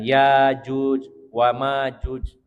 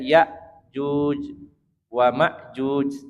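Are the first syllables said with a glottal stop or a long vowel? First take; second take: long vowel; glottal stop. First: The first syllables have a long vowel. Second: The first syllables end in a glottal stop. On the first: This is the reading of most reciters. "dengan alif yang apa namanya alif mati ya dipanjangkan" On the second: This is the reading most people use today. "pakai hamzah yang disukunkan"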